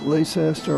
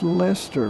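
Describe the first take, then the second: First: It is said in a common non-English way. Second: It is said the way it is in England. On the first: This is how most people say it. The speaker calls it wrong. "Most people pronounce it" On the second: This is the correct way to say it. The speaker calls it right. "but it's Leicester, like in England"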